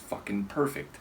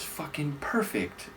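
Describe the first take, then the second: First: It is said in a frustrated, exasperated tone. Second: It is said in a happy, cheerful tone. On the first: Something went badly, said sarcastically. "an expression of exasperation or frustration" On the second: Things really did turn out well. "like with a big happy smile"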